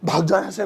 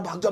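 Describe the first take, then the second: First: It sounds like an angry order to leave. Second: It sounds like an alarmed warning to flee.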